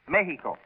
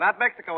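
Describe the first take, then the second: First: The middle consonant is an 'h' sound. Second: The middle consonant is a 'ks' sound. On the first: The speaker calls it right. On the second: The speaker calls it wrong.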